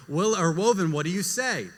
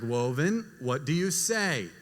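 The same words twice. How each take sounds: First: Said in the usual way. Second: Slow, measured parental prompt. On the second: Retold or imitated. Mother prompting her silent toddler for thanks, slowly. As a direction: draw out the question for a toddler.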